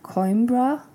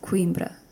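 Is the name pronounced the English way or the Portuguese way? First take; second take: English; Portuguese. First: The name is said with an English-style pronunciation. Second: The name is said with a Portuguese-style pronunciation. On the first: "in English, you would pronounce this something like Coimbra" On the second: "in Portuguese, because this is in Portugal, it's pronounced Coimbra"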